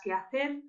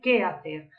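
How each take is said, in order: First: The word que is unstressed. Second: The word que is stressed. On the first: It is a conjunction linking to the verb. "mientras que aquí sería átono" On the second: It is an interrogative pronoun. "aquí el qué es tónico"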